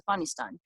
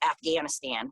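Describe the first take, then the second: First: The name is said with a local pronunciation. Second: The name is said with an American pronunciation. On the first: This is how the name really goes. The speaker calls it right. "but it's" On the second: This is how Americans usually say it. The speaker calls it wrong. "as us Americans say"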